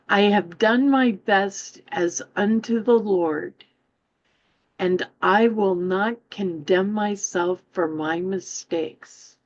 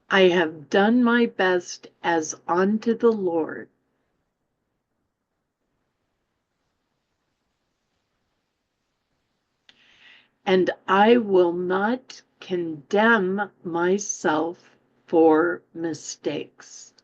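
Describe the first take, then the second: First: It is read at a normal pace. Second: It is read more slowly.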